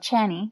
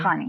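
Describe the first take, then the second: First: The name starts with a ch sound. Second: The name starts with a throaty kh sound. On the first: The speaker calls it wrong. "I really don't like that" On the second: The speaker calls it right. "It's really it should be Khani"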